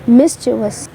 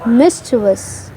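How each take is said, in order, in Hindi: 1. इसके तीन सिलेबल हैं, अंत -vus में। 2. इसके तीन सिलेबल हैं, अंत -vus में।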